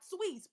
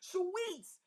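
First: The word is said quickly and plainly. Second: The word is stretched out with strong feeling. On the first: The speaker calls it wrong. "Not sweets" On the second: The speaker calls it right. "I had to say it like that"

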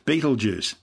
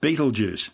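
First: The name is said in the popular corrupted way. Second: The name is said in the popular corrupted way.

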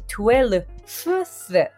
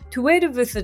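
First: The word ends with an 'fth' sound. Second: The word ends with a 'veth' sound. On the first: The speaker calls it right. "v がf に変わってth、12th という言い方になる" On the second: The speaker calls it wrong. "12th でなくて"

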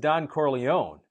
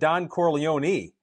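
First: The final vowel of the name is dropped. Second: The final vowel of the name is sounded. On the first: The speaker calls it wrong. "they drop the last E on the end of it there" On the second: The speaker calls it right. "the name is Don Corleone"

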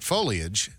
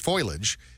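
First: The first syllable sounds like 'go'. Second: The first syllable sounds like 'oil'. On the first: The speaker calls it right. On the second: The speaker calls it wrong.

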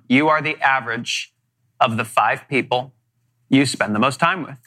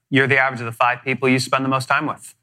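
First: It is said slowly. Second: It is said fast.

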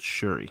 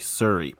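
First: The name begins with a 'sh' sound. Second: The name begins with a plain 's' sound. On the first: The speaker calls it right. "but it's Shuri with an H" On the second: The speaker calls it wrong. "I keep wanting to say Suri"

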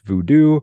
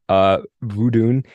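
First: The word ends with a vowel sound. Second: The word ends with an n sound. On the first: This is the form used in New Orleans. "in New Orleans, to my understanding, it's pronounced voodoo" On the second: This is the more appropriate form. "I think, is probably the appropriate way to say it"

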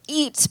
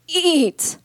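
First: The word is voiced smoothly and steadily. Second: The word is voiced with a strained, broken onset.

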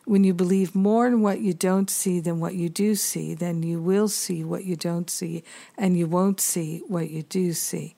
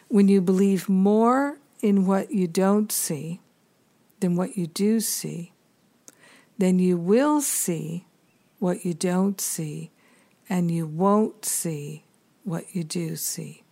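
First: It is said at normal speed. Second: It is said more slowly.

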